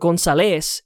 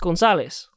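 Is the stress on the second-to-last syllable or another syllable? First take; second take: another syllable; second-to-last. First: The stress is not on the second-to-last syllable. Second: The stress is on the second-to-last syllable. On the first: The speaker calls it wrong. "or Gonzalez" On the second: The speaker calls it right. "the emphasis is on the second last syllable. It's Gonzalez"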